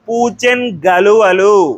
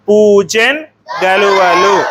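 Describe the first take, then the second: First: The n joins straight onto the next word. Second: The first word ends in a clear n. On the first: "సంశ్లేష రూపం" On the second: "మొదటిది వచ్చేసి పూచెన్ గలువలు"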